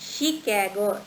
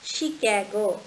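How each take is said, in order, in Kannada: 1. ಈ ಪದ sh ಶಬ್ದದಿಂದ ಶುರುವಾಗುತ್ತದೆ. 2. ಈ ಪದ sh ಶಬ್ದದಿಂದ ಶುರುವಾಗುತ್ತದೆ.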